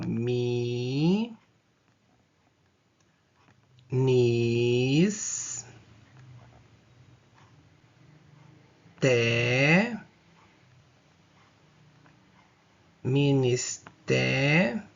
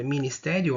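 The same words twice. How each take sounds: First: "ministério" split as mi, nis, té, rio, each drawn out; syllable-by-syllable separation. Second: Said in the usual way. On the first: Shown as a demonstration. Teacher separating the syllables for students, "ministério" very slowly syllable by syllable. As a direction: say "ministério" in slow separate syllables with long pauses. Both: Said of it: "Vamos fazer a separação silábica dessa palavra".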